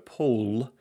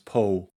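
First: The final l sound is clearly pronounced. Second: The final consonant is trailed off or softened.

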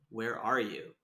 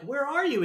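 First: It is said in a dark, intense way. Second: It is said in a light, playful way.

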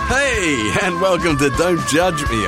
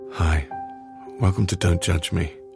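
First: It sounds cheerful and upbeat. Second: It sounds gloomy and downcast.

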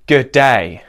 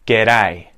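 First: Both syllables are stressed about equally. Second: The stress falls clearly on the second syllable. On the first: The speaker calls it wrong. "where you emphasize both syllables pretty equally" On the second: The speaker calls it right. "It's the second syllable that's getting really emphasized"

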